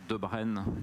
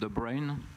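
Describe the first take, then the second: First: The surname is said with a French pronunciation. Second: The surname is said with an English pronunciation.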